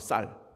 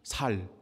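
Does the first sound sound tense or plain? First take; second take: tense; plain. First: The first consonant is tense and strong. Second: The first consonant is plain and soft. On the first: The speaker belongs to the local group. The speaker calls it right. "너 쌀이라고 해봐" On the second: The speaker belongs to the enemy group. The speaker calls it wrong. "살 그러면 죽이는 거예요. 사투리거든"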